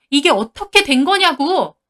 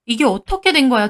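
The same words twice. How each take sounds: First: Raised, louder demand with 거냐고 hit hard; shouting demand. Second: Said in the usual way. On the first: Acted. Wife shouting at husband and friend, furious yell. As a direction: yell the question at them. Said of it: "제가 소리를 지르니까".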